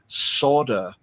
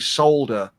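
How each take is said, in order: First: It is said in a North American accent. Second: It is said in a non-North-American accent. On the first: "people from the U S and Canada saying solder" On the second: "and we say solder"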